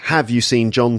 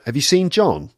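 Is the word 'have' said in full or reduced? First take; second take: full; reduced. First: The word 'have' is said in its full form. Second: The word 'have' is reduced to a weak schwa form. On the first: The speaker calls it wrong. "You can see it's not have you seen John today" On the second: The speaker calls it right. "but have you seen John? So that's weak forms"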